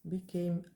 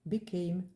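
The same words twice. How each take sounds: The two takes are said the same way.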